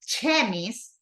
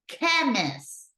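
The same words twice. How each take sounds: First: It begins with the 'ch' sound of 'chip'. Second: It begins with a sound unlike 'ch' in 'chip'. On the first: The speaker calls it wrong. "We don't say chemist" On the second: The speaker calls it right. "we say chemist"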